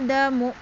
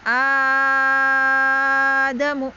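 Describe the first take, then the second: First: The first vowel is held for a medium length. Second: The first vowel is held for a very long time. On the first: "a-nya berapa? Tawasud ya, empat" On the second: "A-nya enam"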